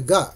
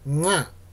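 First: It begins with a plain hard g sound. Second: It begins with a soft nasal ng sound. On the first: "濁音はね" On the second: "一番右側の微濁音"

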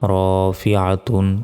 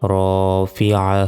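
First: The word ends with a full -tun ending. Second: The word ends cut short without -tun. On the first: The recitation continues without stopping. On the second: The reciter stops at this word.

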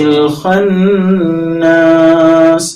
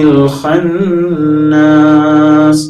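The two takes are said the same way.

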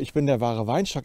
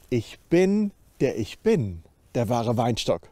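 First: The words 'ich bin' are said plainly, unemphasized. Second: The words 'ich bin' are strongly emphasized. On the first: It is an ordinary statement about being the vine. "Er sagt nicht einfach nur" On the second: It echoes the divine name and claims to be God. "Er sagt"

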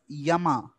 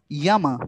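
First: The word ends with an added final vowel. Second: The word ends without a final vowel. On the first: The speaker calls it wrong. "You just pronounced it as Yama. Is it not the anglicized pronunciation?" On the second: The speaker calls it right. "What would the Hindi pronunciation be?"

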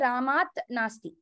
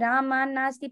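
First: The two words are kept separate, without sandhi. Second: The two words are joined together with sandhi. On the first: The speaker calls it wrong. "there you cannot say Ramat nasti" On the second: The speaker calls it right. "You have to say Rama nasti ... So you have to use sandhi when you're saying it fast"

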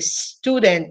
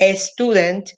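First: The word starts directly with an 's' sound. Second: The word starts with an added 'e' vowel. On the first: The speaker calls it right. "es con S. Student. El sonido es student" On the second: The speaker calls it wrong. "se nos hace más fácil decir student, pero realmente no es con E"

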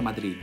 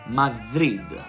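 First: The word ends with a hard d sound. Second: The word ends with a voiced th sound. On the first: "in spagnolo non si pronuncia Madrid" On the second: "Ed è lo stesso suono di the"

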